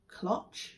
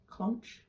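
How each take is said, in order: First: The word is said without an N sound. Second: The word is said with an N sound. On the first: "I want to say cloch" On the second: "or is it got an N in it?"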